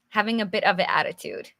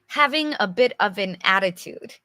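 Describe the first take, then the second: First: Same phrase rattled off fast; quick repeat. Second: Said in the usual way. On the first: Shown as a demonstration. Teacher repeating the definition to the viewers, fast. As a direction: rush through it the second time.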